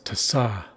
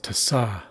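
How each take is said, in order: First: The stress falls on the accented A. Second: The stress falls on the accented A.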